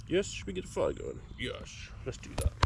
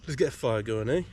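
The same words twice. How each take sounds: First: High, soft sing-song pet talk; dog owner coos to her fluffy dog. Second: Said in the usual way. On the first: Real, not acted. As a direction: coo it like asking a puppy.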